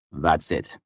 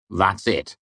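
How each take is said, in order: First: Said in the usual way. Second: A let-down, falling "That's it." with a sinking voice; dismayed. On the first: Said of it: "Kvothe said". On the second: Acted. Chronicler, dismayed at the short page: "That's it." falls flat. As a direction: Chronicler deflating as he reads "That's it.".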